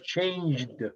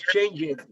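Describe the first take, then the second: First: The ending is a plain D sound. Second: The ending is an extra 'id' syllable. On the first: The speaker calls it right. "but you pronounce changed" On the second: The speaker calls it wrong. "You don't pronounce change it, no"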